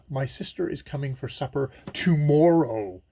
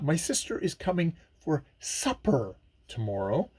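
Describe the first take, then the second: First: The stress is on tomorrow. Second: The stress is on supper.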